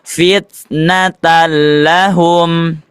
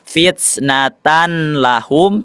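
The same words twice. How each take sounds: First: The n merges into a doubled l sound. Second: The n sound is heard before the l. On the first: The speaker calls it right. "dimasukkan ke huruf lamnya" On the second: The speaker calls it wrong. "tidak dibaca fitnatan lahum"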